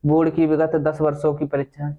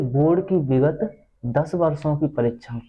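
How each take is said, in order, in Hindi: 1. यह सपाट और लापरवाही से पढ़ा गया है। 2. यह प्यार और अपनेपन से पढ़ा गया है। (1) "अगर तुम ऐसे पढ़ दोगे" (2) "अब इसे मैंने इतना प्यार से पढ़ा है कि आप सोच नहीं सकते"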